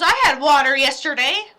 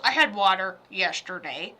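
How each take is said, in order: First: Lightly mocking dad, louder; imitating dad. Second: Lightly voiced dad, lower pitch; imitating dad. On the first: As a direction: quote Dad with loud, mild defensiveness. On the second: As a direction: drop lower to quote Dad. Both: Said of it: "He goes".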